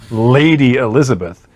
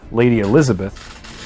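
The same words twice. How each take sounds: First: The name is said forcefully, with strong emphasis. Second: The name is said plainly, without emphasis. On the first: The speaker calls it right. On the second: The speaker calls it wrong.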